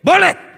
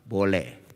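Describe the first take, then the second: First: It is shouted loudly. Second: It is said softly, at half voice.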